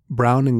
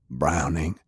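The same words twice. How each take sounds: First: Said in the usual way. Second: Low rough call of the name Browning; wounded heavy. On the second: Acted. Sullivan addresses Browning.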